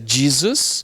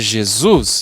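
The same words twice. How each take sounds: First: The stress is on the first syllable. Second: The stress is on the last syllable. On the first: This is the English pronunciation. "em inglês é Jesus, com a sílaba tônica no Jesus" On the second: This is the Portuguese pronunciation. "e em português é Jesus"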